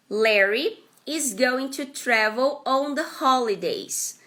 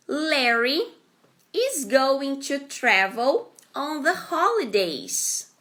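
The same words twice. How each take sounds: First: Said in the usual way. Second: Slow, clear example read; careful teacher read-aloud; slow model sentence. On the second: Shown as a demonstration. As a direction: spell it out slowly for learners. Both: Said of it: "Next example".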